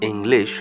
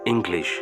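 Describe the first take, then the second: First: No g sound is heard after the ng. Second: A g sound is heard after the ng. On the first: "আমরা যেরকম বলি ইংলিশ, হস্যই উনস্য লয় হস্যই তালবশে হসন্ত" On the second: "এই শব্দটির মধ্যে একটা গয়ের উচ্চারণ থাকবে"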